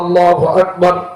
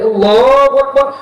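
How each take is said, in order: First: It is said softly and gently. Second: It is called out loudly. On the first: It is suitable for a newborn's ear. The speaker calls it right. "আস্তে আস্তে" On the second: It is too loud for a newborn. The speaker calls it wrong. "এত জোরে বলা যাবে না"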